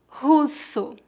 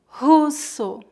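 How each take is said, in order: No difference in how they are said.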